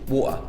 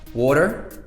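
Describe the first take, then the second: First: The T in the middle is left out entirely. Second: The T in the middle sounds like a D. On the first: "or you just don't pronounce it at all" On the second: "pronounce the T as a kind of like a D"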